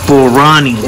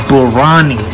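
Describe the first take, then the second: The two takes are said the same way.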